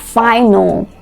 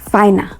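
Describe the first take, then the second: First: The final l sound is fully pronounced. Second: The final l sound is left off. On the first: The speaker calls it right. "You have a word like final" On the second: The speaker calls it wrong. "you would hear some people say finer"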